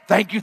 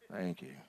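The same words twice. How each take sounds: First: It is said with excitement. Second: It is said flatly, without excitement.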